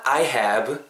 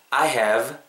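First: "have" closed off with a B, like "hab"; wrong final B. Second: "have" ending in a buzzed V; correct final V. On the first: Teacher showing learners what not to say, "have" ending in B. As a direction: lips shut on the end of "have". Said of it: "Not I have". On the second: Teacher correcting the B ending, "have" with a clear V. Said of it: "아랫입술이 간질간질해야 돼요". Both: Shown as a demonstration.

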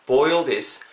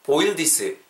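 First: "boil this" linked, no vowel after the final s; natural pronunciation. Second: "boil this" in careful Korean-style syllables, vowel added after "this"; over-separated pronunciation. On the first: Teacher shows learners the preferred way, natural "boil this". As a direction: say "boil this" as two smooth English syllables. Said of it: "정도로 발음해주시고". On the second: Teacher shows learners what to avoid, over-separated "boil this". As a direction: sound out "boil this" as bo-il di-seu. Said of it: "라고 바-, 발음하시기보다는". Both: Shown as a demonstration.

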